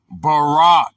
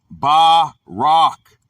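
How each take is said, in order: First: Said in the usual way. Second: "barak" broken into two slow, separate syllables; pronunciation demo. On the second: Shown as a demonstration. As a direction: sound out "barak" with a gap between syllables. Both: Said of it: "pronounced barak".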